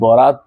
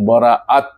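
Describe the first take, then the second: First: The middle is said without a glottal stop. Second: The middle has a glottal stop between vowels. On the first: The speaker calls it wrong. "বরাত শব্দটা বলেন নাই" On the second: The speaker calls it right. "মাঝখানে একটা হামজা আছে"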